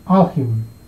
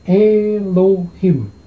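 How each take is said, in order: First: It is said as two syllables, al-him. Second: It is said as three syllables, e-lo-him. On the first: This is the reading by consonant-vowel rules. "bacanya adalah alhim" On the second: This is the traditional Masoretic reading. "Mas Ora membacanya sebagai Elohim"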